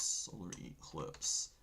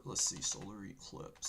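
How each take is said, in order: First: Slow whisper while typing; whispered to himself. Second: Said in the usual way. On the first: Real, not acted. Host typing a search, whispered to himself. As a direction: breathe the words as you type them.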